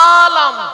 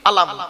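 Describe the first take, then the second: First: The first vowel is drawn out long. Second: The first vowel is short. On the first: It means world. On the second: It means flag.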